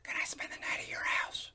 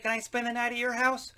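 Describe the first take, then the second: First: It is spoken in a whisper. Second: It is spoken in a normal voice.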